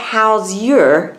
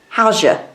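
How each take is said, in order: First: The word 'your' is said in full. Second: The word 'your' is reduced to 'ya'. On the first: "You don't hear how's your" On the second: "you hear how's ya"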